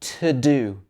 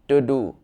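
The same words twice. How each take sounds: First: The words start with clearly different sounds. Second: Both words start with the same sound. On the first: The speaker calls it right. "It should be to do" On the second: The speaker calls it wrong. "It wouldn't be to do"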